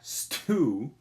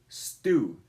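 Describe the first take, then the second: First: The t has a puff of air. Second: The t has no puff of air. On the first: The speaker calls it wrong. "It's not stew. you could say it that way, but that's just not the way it's pronounced" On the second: The speaker calls it right. "you're not going to have that aspiration"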